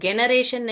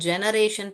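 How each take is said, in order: First: The word begins with a hard G sound. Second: The word begins with a J sound. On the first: The speaker calls it wrong. "इसको हम generation नहीं पढ़ते हैं" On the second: The speaker calls it right. "हम इसको जनरेशन पढ़ते हैं"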